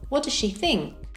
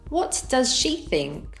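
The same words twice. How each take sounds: First: The words are linked and reduced together. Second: Each word is said separately and fully. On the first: "with connected speech" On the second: "without connected speech"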